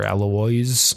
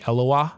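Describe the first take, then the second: First: The name is said with English pronunciation. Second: The name is said with French pronunciation. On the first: "if you pronounce it English" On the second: "if you pronounce it in the French way"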